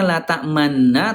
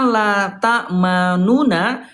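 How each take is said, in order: First: The two n sounds merge into one long n. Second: The two n sounds are separated by a vowel. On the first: This is how the verse is actually recited. The speaker calls it right. "dibacanya la ta'manna" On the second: This is the underlying original form. The speaker calls it wrong. "asal kalimatnya la ta'manuna, tapi tidak dibaca la ta'manuna"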